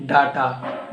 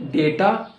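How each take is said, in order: First: "data" with an AH first vowel; DATA as DAH-ta. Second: "data" with an AY first vowel; DATA as DAY-ta. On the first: Teacher showing the other option, "data" as DAH-ta. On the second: Teacher showing one option, "data" as DAY-ta. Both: Shown as a demonstration. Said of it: "it has two pronunciation".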